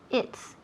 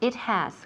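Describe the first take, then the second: First: The words are contracted into one syllable. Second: Two full words are said, without contraction.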